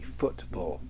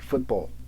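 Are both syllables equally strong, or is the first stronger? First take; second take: first stronger; equally strong. First: The first syllable is strong, the second weak. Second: Both syllables are equally strong. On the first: "I kind of say like a, a, a trochee" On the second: "You might do them equally"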